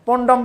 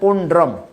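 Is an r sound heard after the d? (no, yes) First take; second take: no; yes. First: The word is said without an r sound. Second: The word is said with an r sound. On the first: The speaker calls it wrong. "রফলাটা উচ্চারণ করে না ... উচ্চারণ ভুল আছে" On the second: The speaker calls it right. "এই শব্দটি উচ্চারণ হবে পণ্ড্রম"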